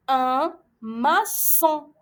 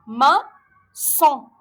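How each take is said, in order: First: Very slow un maçon, ç as S; careful reading. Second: Maçon repeated louder, ç as S; careful reading. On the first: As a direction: read un maçon slowly. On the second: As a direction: say Maçon again, clear S. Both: Shown as a demonstration. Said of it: "On dit".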